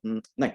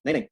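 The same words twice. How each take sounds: First: A low, soft हम्म, held, then नहीं; pause before नहीं. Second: A short, straight double no, no hesitation; straight refusal. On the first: Acting coach demonstrates a trigger point, pausing before नहीं. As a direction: hold back on हम्म before letting out a quiet, low नहीं. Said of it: "रुक के बोलते हो". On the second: Acting coach demonstrates a gesture-triggered line, straight refusal. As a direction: refuse directly, without stopping to think. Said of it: "कि आप ऐसे बोलते हो". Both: Shown as a demonstration.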